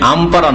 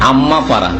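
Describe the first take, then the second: First: The m sound is short and single. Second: The m sound is held long and doubled. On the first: The speaker calls it wrong. "তাহলে আম পারা নাই" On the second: The speaker calls it right. "কি বলতে হয়? আম্মা পারা"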